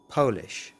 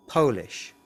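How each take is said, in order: Both takes have the same delivery.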